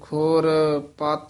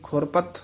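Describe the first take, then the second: First: The two parts are said separately, with a break. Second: The two parts run together as one word. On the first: The speaker calls it right. "ਇਸ ਤਰ੍ਹਾਂ ਉਚਾਰਨ ਕਰਨਾ ਹੈ, ਵੱਖਰੇ ਵੱਖਰੇ ਪਦ ਬੋਲਨੇ ਹਨ" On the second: The speaker calls it wrong. "ਇਹ ਖੁਰਪਤ ਇਕੱਠਾ ਨਹੀਂ ਬੋਲ ਦੇਣਾ"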